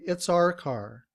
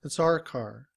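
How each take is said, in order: First: The word our is said in reduced form. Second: The word our is said in reduced form.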